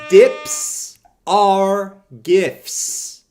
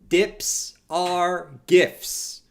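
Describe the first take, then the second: First: The phrase is yelled loudly. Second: The phrase is said calmly without yelling.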